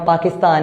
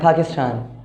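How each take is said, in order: First: It is said in a South Asian accent. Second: It is said in an English accent. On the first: This is how local speakers say it. "हम पाकिस्तान ही बोलेंगे, अपने लहजे में बोलना" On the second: This is how a native English speaker says it. "अगर कोई अंग्रेज़ बोलता है तो वो पाकिस्तान को बोलते हैं पाकिस्तान, ऐसे होता है"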